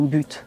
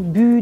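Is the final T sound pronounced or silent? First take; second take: pronounced; silent. First: The final T sound is clearly pronounced. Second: The final T sound is left silent. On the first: "je finis ma phrase avec le mot « but », là je vais le prononcer" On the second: "J'éviterai de dire le T parce qu'il y a deux consonnes"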